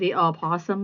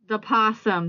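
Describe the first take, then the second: First: The word starts with an audible 'o' sound. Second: The word starts without an initial 'o' sound.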